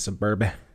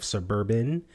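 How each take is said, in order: First: The word is said with its ending dropped. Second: The word is said in full with its ending. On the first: "he left off the ending, like the B" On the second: "Instead of suburban"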